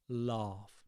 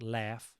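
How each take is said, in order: First: The vowel is long and drawn out. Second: The vowel is short and clipped. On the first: The speaker calls it right. "I really elongate that vowel sound" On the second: The speaker calls it wrong. "not laugh"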